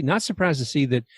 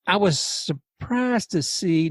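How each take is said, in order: First: Said in the usual way. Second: "surprised" stretched out slowly on a higher pitch; slow, higher lead-in, lingering on "surprised"; drawn-out SURPRISED. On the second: Real, not acted. Host recalling a suspension ruling, "surprised" drawn out high and slow.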